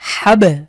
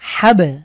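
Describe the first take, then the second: First: The final b is released with an echoing bounce. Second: The same.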